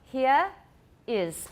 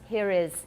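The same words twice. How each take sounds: First: The words are said with no linking R. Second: An R sound links the two words.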